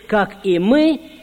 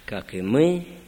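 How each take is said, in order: First: It is said loudly and confidently. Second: It is said quietly and hesitantly. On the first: Everyone prays the words together without hesitation. "все в унисон, все хорошо будем говорить" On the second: Only a few dare to continue the prayer. "только несколько человек продолжат робко"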